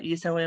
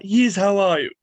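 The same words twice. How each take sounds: First: Said in the usual way. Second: Louder, lightly voiced cartoon baby; Stewie Griffin. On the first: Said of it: "Can you say, like". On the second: Comic retelling a requested impression for a fan's daughter, louder cartoon voice. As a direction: punch it out as the animated infant. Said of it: "my daughter loves Stewie Griffin".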